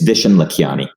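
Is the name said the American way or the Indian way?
American. The name is said with a plain American pronunciation. The speaker calls it right. "the name has an American pronunciation"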